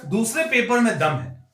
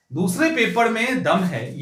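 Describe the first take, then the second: First: Said in the usual way. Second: दूसरे stressed, the whole line said slowly and weighed out; slow emphatic repeat. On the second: Shown as a demonstration. Teacher warns students about the tough second paper, slow and emphatic. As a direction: lean on दूसरे and slow it down to drive it home. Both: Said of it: "teacher repeats line for emphasis".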